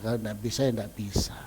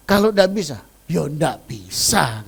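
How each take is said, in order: First: Quieter repeat. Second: Louder, firmly stated; emphatic. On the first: Preacher repeats the rule to the congregation, low and soft. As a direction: lower and softer, settled. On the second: Preacher to congregation, stating it firmly and louder. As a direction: declare it flatly to the church. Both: Shown as a demonstration.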